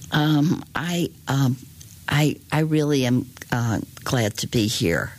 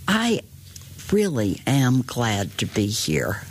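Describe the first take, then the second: First: It is said hesitantly, with fillers and restarts. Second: It is said smoothly and confidently, without fillers.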